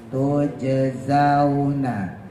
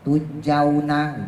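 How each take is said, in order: First: The second consonant is a z sound. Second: The second consonant is a j sound. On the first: The speaker calls it right. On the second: The speaker calls it wrong.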